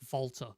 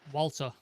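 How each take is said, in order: First: The name is said with a German accent. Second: The name is said with an ordinary English accent.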